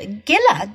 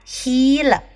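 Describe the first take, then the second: First: It is said the way English spelling suggests. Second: It is said the non-English, original-language way. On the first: The speaker calls it wrong. "在英文中它的发音应该是Gila" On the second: The speaker calls it right. "这并不是一个英语来源的词，所以它发音呢是发Gila"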